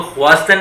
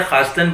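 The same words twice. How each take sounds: First: ख्वास्तन said with a khw glide, as it is spelt; the wrong khwastan reading. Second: खास्तन with a plain kh, the w silent; the right Persian reading; correct reading khastan. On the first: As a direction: pronounce ख्वास्तन with the w sounded. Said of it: "इसको ख्वास्तन नहीं पढ़ते". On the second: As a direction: say खास्तन, not khwastan. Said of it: "खास्तन पढ़ते हैं". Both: Shown as a demonstration.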